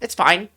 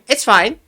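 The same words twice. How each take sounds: First: It sounds annoyed and upset. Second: It sounds sincere and relaxed.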